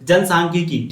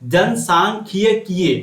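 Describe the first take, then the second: First: The word ends on a plain long 'ee' vowel. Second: The word ends with an added final 'y' glide. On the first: "हम लोग सीधा बोलेंगे" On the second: "सही उच्चारण निकालिएगा तो यहाँ पर बोलना होगा"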